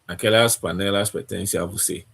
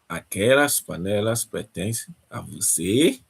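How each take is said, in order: First: It is said with a statement tune. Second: It is said with a question tune.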